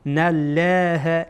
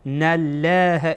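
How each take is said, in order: No difference in how they are said.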